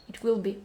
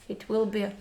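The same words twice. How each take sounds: Both takes have the same delivery.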